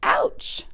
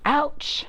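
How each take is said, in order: First: Whispered ouch. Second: Little pig yelps. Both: Acted. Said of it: "says the small pig".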